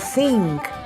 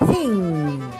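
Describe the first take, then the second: First: The word ends with ng followed by a k. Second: The word ends with a plain ng sound. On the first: The speaker calls it wrong. "or think" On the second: The speaker calls it right. "It is thing"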